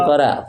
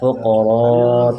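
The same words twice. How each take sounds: First: The first consonant sounds light and thin. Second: The first consonant sounds heavy and thick. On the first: The speaker calls it wrong. "Jangan fuqara" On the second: The speaker calls it right. "fuqara tebal"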